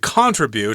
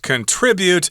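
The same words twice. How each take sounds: First: It is said with a British pronunciation. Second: It is said with an American pronunciation. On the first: "I think in England they say contribute" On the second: "the American pronunciation of the verb form is contribute"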